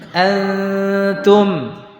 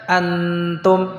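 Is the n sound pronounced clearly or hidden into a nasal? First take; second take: hidden; clear. First: The n is hidden in a held nasal sound. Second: The n is pronounced clearly and distinctly. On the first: The speaker calls it right. "Kita membacanya tidak dengan jelas, tidak pula dengan dileburkan" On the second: The speaker calls it wrong. "tidak dibaca antum, salah. Ini namanya izhar bi gunnah"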